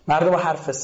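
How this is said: The last word ends with an s sound. "این بختیاری ها شه و سه تلفظ میکنن"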